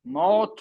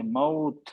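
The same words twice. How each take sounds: First: मौत as 'mot', one 'o' vowel; wrong Urdu vowel. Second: मौत as 'ma-oot' with 'oo' glide; Arabic pronunciation. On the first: Teacher rejects the Urdu way for Arabic, मौत as 'mot'. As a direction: say मौत with a plain long 'o'. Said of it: "मौत नहीं होगा". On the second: Teacher corrects Urdu habit, मौत softly glided as 'ma-oot'. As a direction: end the vowel of मौत on a rounded 'oo'. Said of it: "अरबी में नहीं है". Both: Shown as a demonstration.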